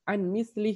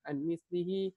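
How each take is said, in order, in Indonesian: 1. Kata terakhir berakhir tanpa vokalnya yang terakhir. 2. Kata terakhir berakhir dengan vokal akhir yang dibunyikan. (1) "misalkan dibaca an mislih, maka dia mengurangi satu satu ketukan" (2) "itu kan diisbahkan an mislihi"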